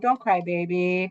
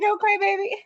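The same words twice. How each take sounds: First: It is said calmly and slowly. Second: It is said fast and stressed.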